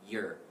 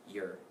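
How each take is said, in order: First: The word is said in a reduced form. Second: The word is said in a reduced form.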